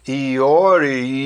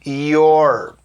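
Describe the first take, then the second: First: It is said in two syllables. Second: It is said in one syllable. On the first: The speaker calls it wrong. "Eu já ouvi gente falando Iori" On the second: The speaker calls it right. "A pronúncia do you are contracto é a mesma daquele your"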